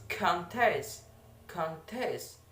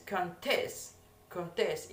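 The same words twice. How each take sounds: First: "contest" as a noun, stress meant on CON; teacher's noun "contest", CON stressed. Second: "contest" as a verb, stress meant on TEST; teacher's verb "contest", TEST stressed. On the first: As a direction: demonstrate "contest" stressed on the first syllable. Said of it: "For the noun that is". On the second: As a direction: demonstrate "contest" stressed on the second syllable. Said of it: "in the seconds". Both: Shown as a demonstration.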